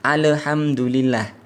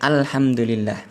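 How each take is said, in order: First: An e-like vowel follows the l of al. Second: The l of al carries no vowel. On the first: The speaker calls it wrong. "jangan alhamdulillah" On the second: The speaker calls it right. "Harusnya sukun ya sukun al"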